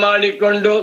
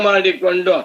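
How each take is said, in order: The two takes are said the same way.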